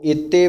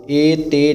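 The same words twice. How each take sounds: First: ਏਤੇ with short first vowel and firm t; ਏਤੇ pressed into one taut word; tightened pronunciation. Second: ਏ ਤੇ split, with long first vowel and single t; ਏ ਤੇ said slackly as a counterexample; loose mispronunciation. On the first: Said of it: "ਏਤੇ ਸ਼ਬਦ ਕੱਸ ਕੇ ਬੋਲਣਾ". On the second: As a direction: stretch ਏ ਤੇ into two loose syllables. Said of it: "ਏ ਤੇ ਨਹੀਂ ਕਹਿਣਾ". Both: Shown as a demonstration.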